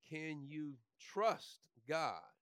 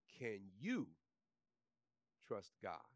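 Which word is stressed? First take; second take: trust; you. First: The stress is on the word trust. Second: The stress is on the word you.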